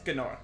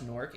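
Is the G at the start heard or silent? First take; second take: heard; silent. First: The word starts with a hard G sound. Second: The word starts with a plain N sound. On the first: The speaker calls it right. "his whole quirky thing was he was the only one in the game that was like this Gnorc" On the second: The speaker calls it wrong. "he just says Norc, and it's very upsetting"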